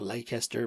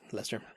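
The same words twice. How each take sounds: First: It is said the way it is spelled. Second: It is said short, like 'Lester'. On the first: "It's spelled Leicester" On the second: "but I think it's Leicester"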